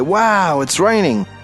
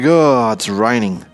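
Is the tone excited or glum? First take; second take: excited; glum. First: It is said with childlike excitement. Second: It is said in a glum, disappointed tone.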